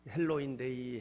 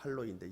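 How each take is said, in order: First: It starts with an English-style 'hel' sound. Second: It starts with a Korean-style 'hal' sound. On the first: "영어식 발음하면" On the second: "한국어로 하면"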